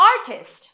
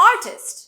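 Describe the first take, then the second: The two takes are said the same way.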